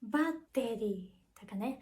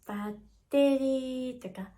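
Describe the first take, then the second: First: Pitch drops partway through the word. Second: Pitch starts low, rises, then stays level. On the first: "下がることがあるのが起伏型" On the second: "最初が低くて、その後がちょっと高くって平坦なやつ"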